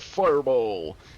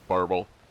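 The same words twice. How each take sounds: First: It is said in a fancy, dramatic way. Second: It is said in a plain, flat way.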